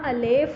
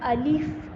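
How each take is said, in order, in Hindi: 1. दूसरा स्वर 'e' जैसा सुनाई देता है। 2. दूसरा स्वर 'i' जैसा सुनाई देता है। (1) "इसको उर्दू की तरह अलेफ नहीं पढ़ना" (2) "अलिफ़ अलिफ़ इस तरह से।"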